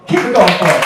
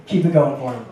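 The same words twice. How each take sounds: First: Louder rally of the crowd; loud emcee push for applause; louder host call. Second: Said in the usual way. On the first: Real, not acted. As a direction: pump up the applause.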